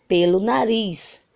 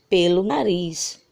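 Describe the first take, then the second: No difference in how they are said.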